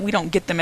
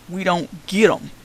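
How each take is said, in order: First: Said in the usual way. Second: "get" drawn out and leaned on; slow down and lean on "get"; stress on GET. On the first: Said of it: "as in receive them". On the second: Shown as a demonstration. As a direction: stretch the word "get" to mark its other meaning. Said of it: "as in understand them".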